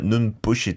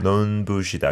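First: The b sound is tense and hard. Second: The b sound is plain and soft. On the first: The speaker calls it wrong. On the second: The speaker calls it right.

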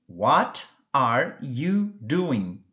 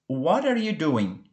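First: Each word is said slowly and separately. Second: The words run together quickly and casually.

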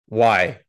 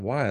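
First: It sounds stern and annoyed. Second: It sounds worried and caring.

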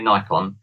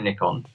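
First: The first syllable sounds like 'nigh'. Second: The first syllable sounds like 'nick'. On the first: This is how Americans say it. "Americans say Nikon" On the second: This is how English people say it. "so English people say Nikon"

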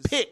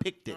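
First: The word is said as one short syllable. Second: The word is said with an added second syllable. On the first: The speaker calls it right. "Picked, not picked it" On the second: The speaker calls it wrong. "They didn't teach you how to enunciate?"

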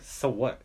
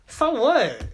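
First: It sounds hostile and attacking. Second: It sounds playful and joking.

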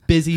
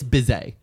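First: The word is said with its ordinary pronunciation. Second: The word ends in a drawn-out 'zay' sound. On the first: "Not busy" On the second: "It's bizay"

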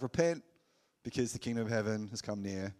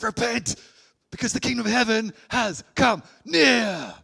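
First: It is said in a calm, understated way. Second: It is said in an excited way.

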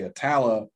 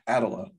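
First: The name is said in the local pronunciation. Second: The name is said in a northern, computer-like pronunciation. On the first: This is how residents say the name. The speaker calls it right. "when people say Atala" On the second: This is how outsiders or a synthetic voice say it. The speaker calls it wrong. "the northern or the computer way, it's Attala"

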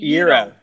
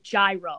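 First: The word is said to rhyme with euro. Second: The word is said not to rhyme with euro. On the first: The speaker calls it right. "like a gyro. Like euro" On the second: The speaker calls it wrong. "it's not a freaking gyro"

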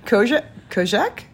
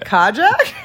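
First: It is said with a French accent. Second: It is said with an American accent. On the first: "How would you say it in French?" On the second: "How would you say it in America?"

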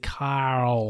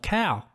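First: The name is said with an R sound. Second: The name is said without an R sound. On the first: "In American, it's Carl"

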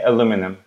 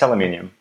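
First: The word is said the American way. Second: The word is said a non-American way. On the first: "I think Americans say aluminum" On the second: "but for me, it's aluminum"

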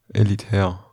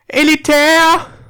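First: It is said at normal, quieter volume. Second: It is said very loudly.

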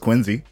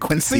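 First: The middle consonant sounds like a z. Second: The middle consonant sounds like an s. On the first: The speaker calls it right. "it's spelled with a C as opposed to with a Z or an S, but everyone says Quincy" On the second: The speaker calls it wrong. "You don't say Quincy"

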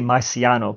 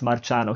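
First: The name is said with an American pronunciation. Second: The name is said with a non-American pronunciation. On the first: "Americans say Marciano" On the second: "but we pronounce Marciano"

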